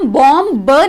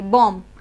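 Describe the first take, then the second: First: A b sound is heard at the end. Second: No b sound is heard at the end. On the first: The speaker calls it wrong. "बॉम ब नहीं बोलेंगे, क्योंकि वो pronounce गलत होता है" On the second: The speaker calls it right. "इसलिए बॉम बोलेंगे"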